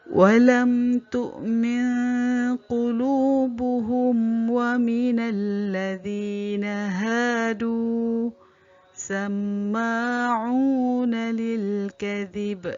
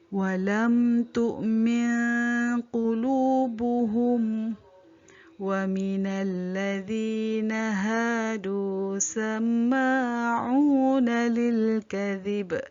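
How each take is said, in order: First: There is a pause after hadu. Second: There is a pause after qulubuhum.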